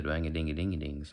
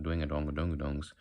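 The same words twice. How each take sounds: First: "dwang-a-dingy-dingy-dings" in a country twang; country accent nonsense syllables. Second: Southern accent nonsense syllables; Southern drawl. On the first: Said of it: "Country is the". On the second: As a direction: round out the "donga" syllables, Southern style. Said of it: "not the". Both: Shown as a demonstration.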